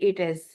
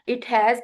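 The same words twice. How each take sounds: First: The words merge into one shortened word. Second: Both words are said fully and separately. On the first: "दो words को मिला के एक word बना देते हैं" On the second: "की बजाय"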